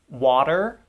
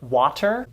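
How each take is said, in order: First: The middle sound is a fast, soft flap. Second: The middle sound is a crisp, true T. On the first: The speaker calls it right. "Instead, we say" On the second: The speaker calls it wrong. "many students will say words like water"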